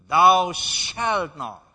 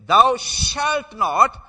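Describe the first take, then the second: First: "Thou shalt not" drawn out and loud, falling; "Thou shalt not" slow, firm, final; slow emphasis. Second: "Thou shalt not" loud and very slow, each word weighted; slow emphasis. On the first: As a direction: weigh every word of "Thou shalt not". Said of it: "There's the emphasis". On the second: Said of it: "when there is an emphasis". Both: Shown as a demonstration.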